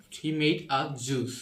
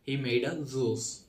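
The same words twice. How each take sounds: First: "juice" with a hard "j", slowly; British-style J. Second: "juice" said as "zoos", slowly; England-style J. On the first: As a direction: say "juice" as "joos", word by word. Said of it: "British হলো জে". (British "জ" দিয়ে juice) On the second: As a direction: put a "z" at the start of "juice". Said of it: "England উচ্চারণটা হলো জে". (ইংল্যান্ডের "z" দিয়ে juice) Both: Shown as a demonstration.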